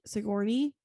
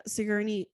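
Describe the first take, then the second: First: "Sigourney" with a "gor" middle, rising; alternative pronunciation attempt. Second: "Sigourney" with an unstressed "ger" middle; hesitant pronunciation attempt. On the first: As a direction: try "Sigourney" as si-GOR-nee, questioningly. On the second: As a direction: try "Sigourney" as SIG-er-nee. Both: Shown as a demonstration. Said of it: "Is that how you".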